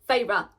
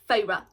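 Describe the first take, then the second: No difference in how they are said.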